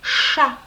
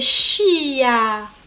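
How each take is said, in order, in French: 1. La voyelle suit directement le son ch. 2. Un son y vient avant la voyelle.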